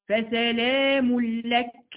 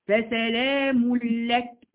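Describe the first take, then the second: Both takes have the same delivery.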